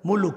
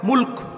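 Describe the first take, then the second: First: An extra u vowel comes between l and k. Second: The l and k join with no vowel between. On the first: The speaker calls it wrong. "Bangla ভাষায় মুলুক বলে" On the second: The speaker calls it right. "সঠিক উচ্চারণ"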